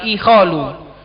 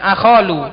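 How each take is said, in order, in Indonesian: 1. Kata ini diawali dengan vokal 'i'. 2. Kata ini diawali dengan vokal 'a'. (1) "tapi ikholu" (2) "bukan akholu"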